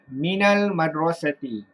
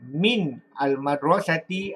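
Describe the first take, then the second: First: The words are joined by an added 'a' vowel. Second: The words are said separately, with no linking vowel. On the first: The speaker calls it right. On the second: The speaker calls it wrong.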